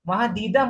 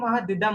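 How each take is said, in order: First: The vowel in 'di' is drawn out long. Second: The vowel in 'di' is kept short. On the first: The speaker calls it wrong. "आधे लोग इसको महदीदम तो नहीं पढ़ रहे?" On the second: The speaker calls it right. "दिदम, क्योंकि छोटा ही होगा ना उसमें"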